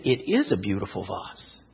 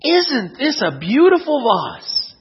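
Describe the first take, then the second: First: Low, soft agreement; understated grandfather, much lower and softer; agreeing grandfather. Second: Lightly acted, slow, lilting admiration; admiring grandmother. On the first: Acted. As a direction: drop low and quiet, gently agreeing with her. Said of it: "he looked and he said". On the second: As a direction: slowly admire it, pitch swooping on "beautiful". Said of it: "she turned to her husband and said".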